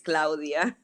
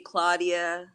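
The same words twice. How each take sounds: First: The name is said with a Spanish accent. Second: The name is said with an American accent. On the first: The speaker calls it right. "It's Claudia" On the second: The speaker calls it wrong. "She didn't name me Claudia. There's no U S ian accent"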